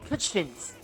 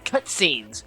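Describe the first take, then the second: First: The word is pronounced in an odd, garbled way. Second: The word is pronounced in the ordinary way. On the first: The speaker calls it wrong. "mispronounce things like cutscenes" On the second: The speaker calls it right. "instead of cutscenes"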